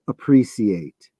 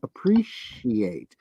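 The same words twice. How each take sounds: First: The middle consonant is a plain s sound. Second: The middle consonant is an sh sound. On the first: The speaker calls it right. "the British pronunciation" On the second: The speaker calls it wrong. "Appreciate doesn't have an S H in it. Why do you say appreciate?"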